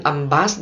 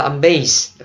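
First: "âm bass" with "bass" rhyming with "pass"; wrong pronunciation. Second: "âm bass" with "bass" like "base", slowly; corrected pronunciation. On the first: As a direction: say "âm bass" with a short A, the common mistake. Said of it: "Không phải đâu". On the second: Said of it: "nó là âm bass". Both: Shown as a demonstration.

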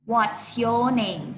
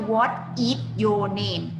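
First: What's your name run together as one phrase, stress on your; correct contracted form. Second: What is your name with every word split apart, stress on What; wrong separated form. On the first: Teacher showing the right way to ask a name, clear and careful. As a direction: join What's into one word, lean on your. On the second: Teacher showing the wrong way kids ask a name, overly separated. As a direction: pull What and is apart, stiffly. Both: Shown as a demonstration. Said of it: "ไม่ใช่".

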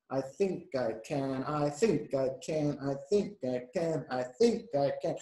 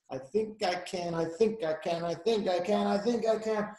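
First: Measured, rhythmic effort; slow engine chug. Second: Rhythmic, climbing in pitch; quickening engine chug. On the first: Little engine starting uphill, slow determined chug. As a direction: chug the words out slowly and steadily. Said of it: "She's going really slow at first". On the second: Little engine gaining speed uphill, quickening chug. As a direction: chug it quicker, rising with each repeat. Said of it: "faster and faster and faster". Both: A narrator's reading.

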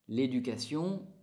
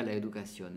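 First: L'éducation said slowly and carefully in French, with a French u sound; French pronunciation. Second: Said in the usual way. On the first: Shown as a demonstration. Teacher models L'éducation in French for Spanish speakers, slow and careful. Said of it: "L'éducation en francés". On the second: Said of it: "en español sería la educación".

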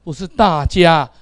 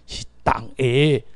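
First: 大家 as Mandarin dà-jiā, slow and louder; Mandarin-style 大家. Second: 大家 as Taiwanese tak-ê, drawn out. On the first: Teacher showing the wrong reading, 大家 as a raised, slow dà-jiā. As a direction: stretch 大家 into dà-jiā, pitched up. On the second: Teacher giving the Taiwanese word, 大家 slowly as tak-ê. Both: Shown as a demonstration.

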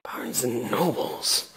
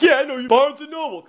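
First: Slow, low, soft puzzlement; baffled questioning. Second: High-pitched imitation of the guard; mock-hostile guard. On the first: Retold or imitated. Baffled customer repeating the guard's clue, slow puzzlement. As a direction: draw the name out quietly, puzzled. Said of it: "'cause now we're like". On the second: Guard reminding a stranger where they met, mock hostility. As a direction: throw the accusation in a raised guard voice. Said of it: "And he's like".

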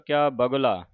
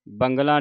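First: ਬਗਲਾ said without any nasal, "bagla"; correct pronunciation. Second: ਬੰਗਲਾ said wrongly with a nasal, "bangla"; wrong pronunciation. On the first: Teacher modelling ਬਗਲਾ for the sangat as "bagla". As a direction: keep ਬਗਲਾ plain, "bagla", no n sound. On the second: Teacher warning the sangat against the wrong "bangla". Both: Shown as a demonstration. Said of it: "ਬੰਗਲਾ ਨਹੀਂ ਕਹਿ ਦੇਣਾ".

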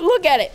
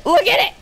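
First: High, thrilled urging; excited urging. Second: Very high, excited squeal; ecstatic squeal. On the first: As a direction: show it off excitedly in a raised pitch. Showing off the gun, amazed. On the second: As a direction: squeal it out, pitch shooting up at the end. Repeats it with mounting excitement. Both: Real, not acted.

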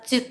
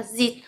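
First: "dụt" with a u vowel, cut short; ju reading. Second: "dịt" with an i vowel, cut short; ji reading. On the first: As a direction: say "dụt" as a stopped jut. (đọc "dụt" với âm u) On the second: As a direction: say "dịt" as a stopped jit. (đọc "dịt" với âm i) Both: Shown as a demonstration. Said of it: "sẽ có hai cách đọc".

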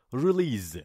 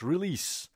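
First: ریلیز ending with a z sound; wrong pronunciation. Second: ریلیس ending with a crisp s sound; teacher's corrected ریلیس; correct pronunciation. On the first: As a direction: say ریلیز with a buzzing z at the end. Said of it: "اما اشتباس". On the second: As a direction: say ریلیس with a clear s at the end, no z. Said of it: "سی هست آخرش". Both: Shown as a demonstration.

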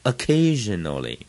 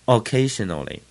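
First: Occasionally opened with a faint schwa, stress on CA; light first vowel. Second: Occasionally begun with a full O, SH in the middle; mistaken O reading. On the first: Teacher giving the dictionary reading, light schwa in occasionally. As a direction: say occasionally with a tiny 'uh' before a long CA. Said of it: "很轻音的". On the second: Teacher showing how foreigners misread it, full O in occasionally. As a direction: read occasionally as spelt, with a big O. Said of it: "他看到一个O". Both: Shown as a demonstration.

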